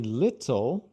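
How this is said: The middle t is a clear, crisp t sound. "que é mais como os britânicos pronunciam"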